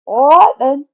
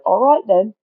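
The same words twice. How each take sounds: First: Much higher, much louder English echo; echoed English accent. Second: Put-on higher, louder English-accented quote. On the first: Retold or imitated. Interviewer echoing the English guy, exaggerated English accent. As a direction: parrot the Englishman back in a big mock accent. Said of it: "And I said". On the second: Imitating the English guy agreeing to an interview, English accent. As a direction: lightly mimic the Englishman's accent. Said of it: "he was like".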